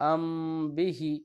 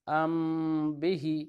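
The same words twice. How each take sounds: Both takes have the same delivery.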